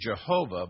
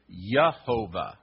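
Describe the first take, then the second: First: The word begins with a J sound. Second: The word begins with a Y sound. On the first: This is how it is known today. "now you know it as Jehovah" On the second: This is how it was said in older times. "In Old English, it was Yehovah"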